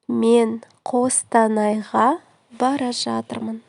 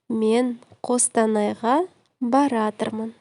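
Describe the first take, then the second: First: The verb is said as two full words. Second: The verb is squeezed into one short word.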